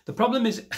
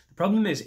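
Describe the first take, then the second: First: Emphatic. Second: Loud, high restart; emphatic. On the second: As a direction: hit it harder on problem. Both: Shown as a demonstration.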